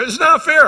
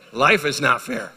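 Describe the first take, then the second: First: Put-on high loud whining kid voice; whiny kids. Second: LIFE slow, firm, falling; dad's slow deadpan reply; stress on life. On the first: Father imitating his kids whining, high and loud. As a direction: mimic a whining child. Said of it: "they go". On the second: Retold or imitated. Father answering his whining kids, slow and firm. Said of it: "I said".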